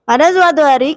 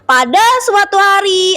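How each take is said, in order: First: The words are slurred and hard to make out. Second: Each word is articulated clearly and distinctly. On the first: The speaker calls it wrong. "Sekarang artikulasi yang kurang baik" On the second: The speaker calls it right. "Itu artikulasi yang baik ya"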